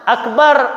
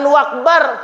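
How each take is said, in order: First: The word begins with a glottal stop. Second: The word begins with a w sound. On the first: The speaker calls it right. "pakai alif, pakai hamzah" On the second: The speaker calls it wrong. "jangan wakbar"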